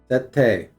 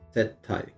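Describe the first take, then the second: First: The word ends with an 'e' vowel sound. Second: The word ends with an 'ai' vowel sound. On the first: The speaker calls it right. "not settai, sette" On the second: The speaker calls it wrong. "Why am I saying settai?"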